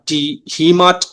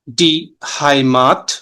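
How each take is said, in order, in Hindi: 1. पहला स्वर 'ee' की तरह बोला जाता है। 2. पहला स्वर 'ai' की तरह बोला जाता है। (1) "डी हीमाट बोल देंगे तो वो गलत है" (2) "अब ये साउंड करेगा आई"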